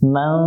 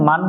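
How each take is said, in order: First: The n is hidden as a nasal sound. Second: The n is pronounced fully with the tongue. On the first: The speaker calls it right. "নুনটাকে বাংলায় মনস্বর ধরে পড়তে হবে।" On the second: The speaker calls it wrong. "এখানে মান পড়া যাবে না"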